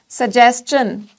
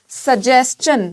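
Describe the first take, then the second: The two takes are said the same way.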